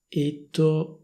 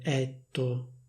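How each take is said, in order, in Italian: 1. La e è una vocale chiusa. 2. La e è una vocale aperta. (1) "dovrebbe essere pronunciato con la e chiusa" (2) "e non etto"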